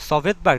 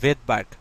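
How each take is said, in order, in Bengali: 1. শব্দটি s ধ্বনি দিয়ে শুরু হয়। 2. শব্দটি s ধ্বনি ছাড়া শুরু হয়। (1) "সভেদবার্গ না কিন্তু" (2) "এই এস মানে হচ্ছে ভেদবার্গ"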